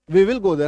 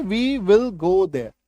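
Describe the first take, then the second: First: Said in the usual way. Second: Very slow dictation, stress on will; slow classroom read; slow model sentence. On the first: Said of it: "है ना". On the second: Shown as a demonstration. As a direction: spell it out slowly. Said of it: "वहां की अंग्रेजी देखिए".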